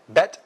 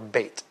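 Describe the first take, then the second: First: The vowel is short, as in 'bet'. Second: The vowel is long, as in 'bait'. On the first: "It can be now pronounced either way" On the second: "It can be now pronounced either way"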